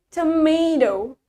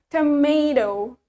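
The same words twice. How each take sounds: Both takes have the same delivery.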